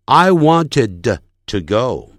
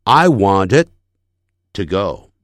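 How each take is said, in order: First: "wanted" with the final d fully released into an extra "duh"; over-released d. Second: "wanted" held on an unreleased d, pause before "to go"; stopped final d. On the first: Teacher showing what natives avoid, "wanted" with a popped d. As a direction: punch out the d of "wanted" before "to go". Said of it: "他不会念成". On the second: Teacher modelling natural speech, silent stop after "wanted". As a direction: stop on "wanted" without releasing d, then "to go". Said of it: "他停顿了". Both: Shown as a demonstration.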